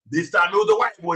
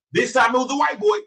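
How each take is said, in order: First: Said in the usual way. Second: Put-on "boy" lifted high at the end, like a question; rising emphasis. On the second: Shown as a demonstration. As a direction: push "boy" up, higher pitched and incredulous.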